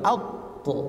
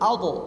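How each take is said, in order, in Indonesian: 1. Bunyi qaf ditahan dan dipanjangkan. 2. Bunyi qaf dilepas dengan cepat, tidak ditahan. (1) "Jangan begini Pak" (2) "tapi langsung"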